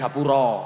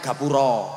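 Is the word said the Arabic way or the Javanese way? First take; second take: Javanese; Javanese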